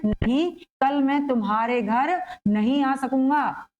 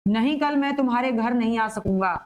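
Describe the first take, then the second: First: Slow, with the first नहीं set apart by a pause; pause after नहीं. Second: Said in the usual way. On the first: Shown as a demonstration. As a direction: stop after the opening नहीं, then go on deliberately. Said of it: "यहाँ पर होगा एक रुका हुआ". (पहले नहीं के बाद रुककर) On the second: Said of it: "लेकिन क्या कहना है".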